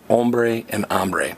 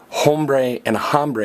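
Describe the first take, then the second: First: The initial H sound is left silent. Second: The initial H sound is pronounced aloud. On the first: The speaker calls it right. "the H is silent. you say" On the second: The speaker calls it wrong. "You don't say"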